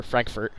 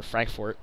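First: "Frankfurt" with an ER vowel in the last syllable; Frankfurt as "Frank-furt". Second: "Frankfurt" with an OR vowel in the last syllable; Frankfurt as "Frank-fort". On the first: Correcting the city's name, "Frankfurt" said FRANK-fert. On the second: Flying over the next city, "Frankfurt" slipped out as FRANK-fort. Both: Real, not acted. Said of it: "I immediately mispronounced the next city".

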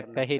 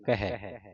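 First: ਕਹੇ ending in a close "e"; wrong vowel ending. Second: ਕਹੈ ending in an open "ai"; open vowel ending. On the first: Teacher shows what to avoid, ਕਹੇ with close "e". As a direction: say ਕਹੇ with a narrow final "ay". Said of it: "ਕਹੇ ਨਹੀਂ ਪੜ੍ਹਨਾ". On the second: Teacher gives the correction, ਕਹੈ with open "ai". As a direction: say ਕਹੈ with a wide final "eh". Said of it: "ਕਹੈ ਪੜ੍ਹਨਾ". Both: Shown as a demonstration.

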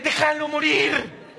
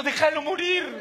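First: "Déjalo morir" drawn out slowly, leaning on "Déjalo"; slow emphatic plea. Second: Said in the usual way. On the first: Acted. Comic telling wives to leave husbands alone, slow pleading.

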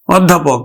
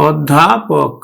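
First: Said in the usual way. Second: অধ্যাপক said slowly in parts; slow, separated অধ্যাপক; drawn-out pronunciation. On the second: Shown as a demonstration. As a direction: stretch অধ্যাপক out for learners. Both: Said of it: "অধ্যাপকের উচ্চারণ কেমন হবে".

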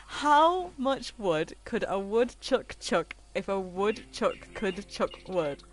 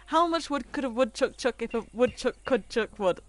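First: Slow, deliberate tongue twister; careful tongue twister. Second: Quick-fire tongue twister, a bit higher; fast tongue twister. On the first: Streamer trying a viewer's tongue twister, slow and careful. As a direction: pick through each word unhurriedly. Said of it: "I'm not gonna say that fast". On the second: Streamer having another go at the tongue twister, rapid-fire. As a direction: rattle it off without stopping. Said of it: "I can't say that fast". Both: Shown as a demonstration.

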